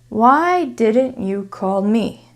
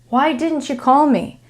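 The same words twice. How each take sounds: First: The words are said separately and carefully. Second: The t and y join into a small ch sound. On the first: "that was my English teacher voice" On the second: "But an American would say"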